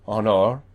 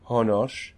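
First: The word ends in an R sound. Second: The word ends in a hissing S sound. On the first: This is the later form after the historical change. "sounds more like an R" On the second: This is the older, original form of the word. "was originally honos. It was an S sound"

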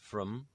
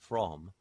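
First: The word is said with a weak schwa vowel. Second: The word is said with its full vowel. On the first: "becomes from" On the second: "from becomes from"

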